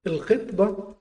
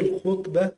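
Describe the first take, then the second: First: الخطبة said khitba, short i after kh; khitba, not khutba, for الخطبة; kasra on the kha. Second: الخطبة said khutba, short u after kh; khutba, not khitba, for الخطبة; damma on the kha. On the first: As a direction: say الخطبة with an i vowel: KHIT-ba. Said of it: "بكسر الخاء". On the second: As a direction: say الخطبة with a u vowel: KHUT-ba. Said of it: "بضم الخاء". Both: Shown as a demonstration.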